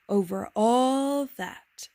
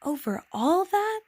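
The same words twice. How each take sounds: First: Very slow, stretched-out falling statement; grand answer. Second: Much higher, slow, wondering rise; amazed question. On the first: King answered the little prince, grandly certain. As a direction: draw out ALL with regal certainty. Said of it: "the king answered". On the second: Little prince asked about planets and stars, amazed. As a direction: stretch it into an astonished question. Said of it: "asked the little prince". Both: A narrator's reading.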